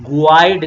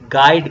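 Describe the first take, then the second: First: A u sound is heard after the g. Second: The g goes straight into the vowel. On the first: The speaker calls it wrong. "गुआइड नहीं कहेंगे" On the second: The speaker calls it right. "आप यहाँ पे गाइड कह रहे हैं"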